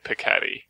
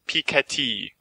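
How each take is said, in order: First: The name is said with an English pronunciation. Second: The name is said with a French pronunciation. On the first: The speaker calls it wrong. "just with my regular accent" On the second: The speaker calls it right. "it was supposed to be pronounced Thomas Piketty"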